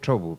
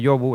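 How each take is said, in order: First: The word begins with a ch sound. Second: The word begins with a y sound. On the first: This is the local form in Somiedo. "efectivamente en Somiedo en vez de decir" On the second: This is the usual form elsewhere. "en vez de decir eh, yobu"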